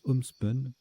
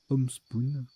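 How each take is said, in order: First: The second syllable has a short 'u' vowel. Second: The second syllable has a long 'oo' vowel. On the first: The speaker calls it right. "ça se prononce homespun" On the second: The speaker calls it wrong.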